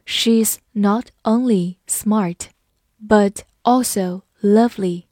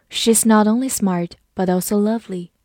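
First: Slow, separated words; slow reading. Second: Said in the usual way. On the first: Shown as a demonstration. Teacher modelling not only but also, read slowly. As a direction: read it word by word, unhurried. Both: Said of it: "我们慢读一遍".

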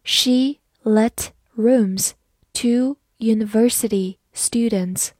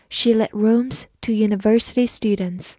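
First: Slow, word-by-word demonstration; teacher's measured read-along. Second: Said in the usual way. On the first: Shown as a demonstration. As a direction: read it slowly, pausing after each word. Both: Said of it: "慢慢来读".

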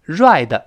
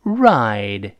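First: "ride" with a Chinese-style zh-like r; wrong r. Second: Slow "ride" with tongue curled far back; curled American r. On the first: Teacher warns against a mistake, faulty r. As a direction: mispronounce "ride" as buzzy "ruai-də", tongue not curled back. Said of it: "不要读成". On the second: Teacher models the word after correcting it, curled r. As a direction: draw out "ride" from a deep American r. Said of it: "美音中勾舌头". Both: Shown as a demonstration.

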